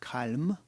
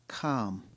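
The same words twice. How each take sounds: First: The l sound is pronounced. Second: The l sound is not pronounced. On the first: The speaker calls it wrong. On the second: The speaker calls it right. "A silent L"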